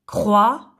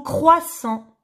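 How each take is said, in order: First: "croissant" split by a long pause, crois... sant; syllable by syllable. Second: Said in the usual way. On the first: Shown as a demonstration. Teacher showing pupils the syllables, "croissant" syllable by syllable. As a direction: break "croissant" into two separate beats. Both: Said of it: "Si je supprime la première syllabe".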